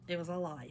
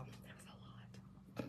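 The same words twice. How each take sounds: First: Said in the usual way. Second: Breathless whisper; whispered it was a lot. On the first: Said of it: "first take said aloud". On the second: Real, not acted. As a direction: breathe it out as a private aside. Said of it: "repeated aside whispered".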